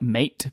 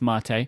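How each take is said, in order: First: It is said the way it is spelled. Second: It is said differently from its spelling. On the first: "It's spelt like mate" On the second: "but it's mate, I believe"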